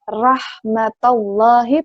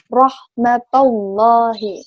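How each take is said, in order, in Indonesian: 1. Bunyi r-nya tipis dan ringan. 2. Bunyi r-nya tebal dan berat. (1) "bukan rahmatallahi" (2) "tapi rahmatallahi"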